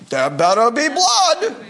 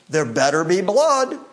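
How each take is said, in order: First: Laughing through a hammed-up Jewish accent. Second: Put-on Jewish accent. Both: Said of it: "with quite the Jewish accent".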